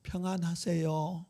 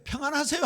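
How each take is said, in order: First: Gentle greeting. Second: Higher, bright greeting with a lifted end. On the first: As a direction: greet your neighbour slowly and tenderly. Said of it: "우리 옆 사람하고 인사해 봅시다". (천천히 부드럽게 건네는 인사) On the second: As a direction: toss the greeting up cheerfully. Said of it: "하는데 반사 이렇게 해보세요". (높고 밝게 끝을 올리는 인사) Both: Shown as a demonstration.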